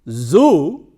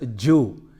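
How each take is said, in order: First: The word begins with a 'z' sound. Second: The word begins with a 'j' sound. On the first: The speaker calls it right. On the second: The speaker calls it wrong.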